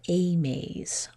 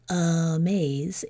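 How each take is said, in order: First: The first vowel is a full ay sound. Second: The first vowel is reduced to a weak uh. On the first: The speaker calls it right. "saying the vowel sound correctly in an open syllable" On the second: The speaker calls it wrong. "we add this uh instead of saying the vowel sound correctly"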